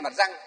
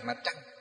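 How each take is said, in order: First: The second word starts with a plain 'r' sound. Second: The second word starts with a curled-tongue 'tr' sound. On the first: This is how older people said it in the past. "di dưới là răng" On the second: This is the standard modern pronunciation. "hơi uốn lưỡi lên một chút"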